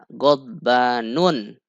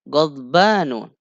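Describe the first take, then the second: First: The word ends with an added n sound. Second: The word ends in a plain vowel. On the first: The speaker calls it wrong. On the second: The speaker calls it right.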